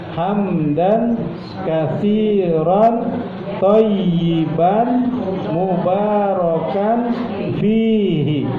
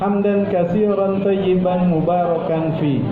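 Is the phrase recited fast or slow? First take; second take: slow; fast. First: The phrase is recited slowly and fully. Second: The phrase is recited quickly and shortened.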